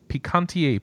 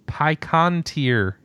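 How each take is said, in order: First: The name is said in a plain, casual way. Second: The name is said in a fussy, affected way.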